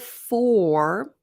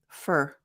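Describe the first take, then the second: First: The word has a full, clear vowel. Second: The word has a weak, reduced vowel. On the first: "instead of for" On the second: "we have a reduction, for to fur"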